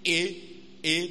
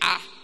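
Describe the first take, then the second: First: The letter is said as its name, 'ay'. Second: The letter is said as a short 'ah' sound. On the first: The speaker calls it wrong. "Don't say A" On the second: The speaker calls it right. "Say ah. ... that sound is called phonics"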